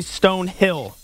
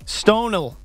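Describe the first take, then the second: First: The middle h is clearly pronounced. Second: The middle h is dropped, run together. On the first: The speaker calls it wrong. "You don't say Stonehill" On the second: The speaker calls it right. "Apparently, it's Stonel"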